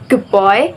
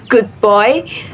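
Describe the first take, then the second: First: Good ends with a b-like sound. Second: Good ends with a clear d sound.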